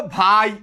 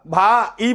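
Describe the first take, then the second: First: ভাই as one gliding syllable; correct diphthong. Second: ভা and ই as two slow separate syllables; wrong vowel split. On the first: Teacher correcting students, ভাই said in a single syllable. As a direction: run আ straight into ই in ভাই, one beat. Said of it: "তুমি বলবা ভাই". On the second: Teacher asking if you would say it so, ভা, ই split apart. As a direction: break ভাই apart, stretching ভা, then a detached ই. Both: Shown as a demonstration.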